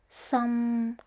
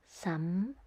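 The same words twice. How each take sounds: First: It is said in the third tone. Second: It is said in the fifth tone. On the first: It means leak. "The third tone is some" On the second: It is not a word. "in this fifth tone, but there is the sound some"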